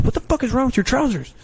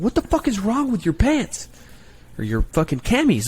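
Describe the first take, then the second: First: Much higher, louder yelled question; drill yell. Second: Drill yell. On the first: Recruiter yells at recruit over his pants, high and loud. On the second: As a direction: yell it at the recruit in disbelief. Recruiter yelling at recruit. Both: Retold or imitated.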